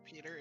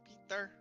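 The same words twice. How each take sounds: First: The name is said with an American pronunciation. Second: The name is said with a Slavic pronunciation. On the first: The speaker calls it wrong. "it's not actually Peter" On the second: The speaker calls it right. "It's Peter because he's because it's Slavic"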